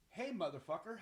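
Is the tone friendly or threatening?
friendly. The tone is friendly and warm. It is a greeting. "one is a greeting"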